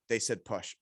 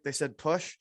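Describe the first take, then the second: First: It is said firmly, with confidence. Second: It is said hesitantly, without confidence. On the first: The translator presents the instruction as certain. The speaker calls it right. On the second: The translator is not certain of the instruction. The speaker calls it wrong.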